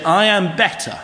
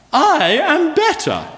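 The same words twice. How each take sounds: First: Said in the usual way. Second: High, slow, snooty upper-class drawl on "I am better"; hammed-up posh lady, high and loud. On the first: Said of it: "wouldn't have done that accent". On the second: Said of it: "saying in a posh voice".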